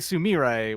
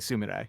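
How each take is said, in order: First: The stress is on the second syllable. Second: The stress is on the first syllable. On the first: It follows the game's English-like pronunciation. "they actually specifically emphasize the second syllable as if it was an English name" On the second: It follows modern real-life pronunciation. "In real life, in modern time, you would say Sumire"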